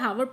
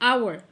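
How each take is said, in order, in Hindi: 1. यह शब्द एक सुनाई देने वाली h ध्वनि से शुरू होता है। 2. यह शब्द एक स्वर (vowel) से शुरू होता है, h silent है। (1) "आपको इसे हावर प्रोनाउंस नहीं करना" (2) "you will pronounce आवर आवर"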